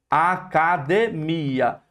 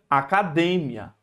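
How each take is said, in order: First: The final i and a are separate syllables. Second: The final i and a merge into one syllable. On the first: The speaker calls it right. "é separado. É hiato" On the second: The speaker calls it wrong. "se fosse ditongo, seria academia"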